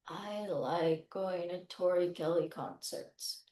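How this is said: It is said in a flat, robot-like voice.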